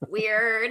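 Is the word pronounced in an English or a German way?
English. It is pronounced with a standard English accent. This is how the word is normally said in English. "instead of weird"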